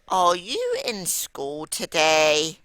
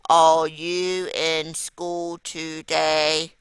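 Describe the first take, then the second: First: It is asked with a lively, questioning voice. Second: It is said in a flat, robotic monotone. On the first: The speaker calls it right. "If I was asking a question, I would say" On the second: The speaker calls it wrong. "I'd sound like a robot"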